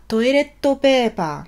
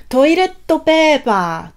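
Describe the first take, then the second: First: "toiletto paper" with a held T, toi-let-to pe-pa; Japanese katakana pronunciation. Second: "toiletto paper" with a doubled T and added final O, paper ending in A; Japanese katakana pronunciation. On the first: Teacher repeating the toilet paper word for learners. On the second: Teacher modelling the Japanese word for toilet paper. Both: Shown as a demonstration. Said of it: "on prononce ça toiletto paper".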